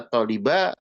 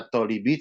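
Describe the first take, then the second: First: The word ends in the vowel a. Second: The word ends in the vowel i. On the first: "Tidak dibaca at-taliba" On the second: "tidak dibaca at-talibi"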